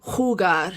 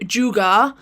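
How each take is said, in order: First: It begins with a throaty H sound. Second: It begins with an English J sound. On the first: The speaker calls it right. "the J is like a H sound, Say it from the back of your throat" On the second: The speaker calls it wrong. "not j- jugar"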